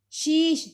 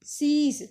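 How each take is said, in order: First: ਸ਼ੀਸ਼ with sh at both ends; higher, louder ਸ਼ੀਸ਼, hushing consonants; incorrect sh form. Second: ਸੀਸ with s at both ends; higher, louder ਸੀਸ, plain s sounds; correct s form. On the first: Teacher showing the incorrect form, ਸ਼ੀਸ਼ with sh. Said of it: "ये इनका अशुद्ध रूप है". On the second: Teacher showing the correct form, ਸੀਸ with s. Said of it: "ये जो हम कर रहे हैं ये शुद्ध रूप". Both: Shown as a demonstration.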